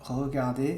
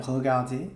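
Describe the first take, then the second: Both takes have the same delivery.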